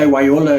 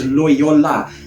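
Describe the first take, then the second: First: The word begins with a W sound, said quickly. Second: The word begins with a clear L sound. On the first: The speaker calls it wrong. "If you're speaking fast, you say Wyola. ... you make like a fumble with your tongue" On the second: The speaker calls it right. "I've sort of like um, practiced a little bit. It's Loyola"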